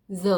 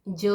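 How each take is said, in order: First: ज as buzzed "zə"; the dotted ज, continuous z as in "zoo"; z sound. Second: ज as hard "jə"; the undotted ज, tongue stopping as in English "jug"; j sound. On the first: Teacher shows the correct reading, ज as z. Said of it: "उसको हम ज पढ़ेंगे". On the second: Teacher shows the reading to avoid, ज as j. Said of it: "नहीं पढ़ेंगे". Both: Shown as a demonstration.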